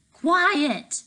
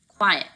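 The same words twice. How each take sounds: First: High, loud thundering shout; booming bellow. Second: Loud barked command; bellowed. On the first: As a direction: roar so they flinch. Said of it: "The booming thunder of the man's voice". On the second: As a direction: bellow them into silence. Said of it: "Tank bellowed". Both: Acted.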